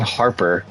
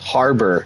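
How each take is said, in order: First: The middle consonant is a P sound. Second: The middle consonant is a B sound. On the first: The speaker calls it wrong. "not Harper" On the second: The speaker calls it right. "It's Harbor"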